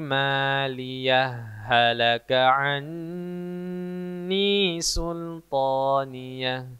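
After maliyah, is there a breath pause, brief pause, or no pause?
no pause. Maliyah runs straight into halaka without stopping.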